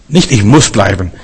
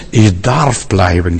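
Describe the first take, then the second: First: Said in the usual way. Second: Slow, weighty stress on "darf". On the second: Shown as a demonstration. Preacher stressing to the congregation that "darf" is a gift, slow stress. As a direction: lean into "darf" and stretch it slowly. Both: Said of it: "Das hat ganz andere Betonung".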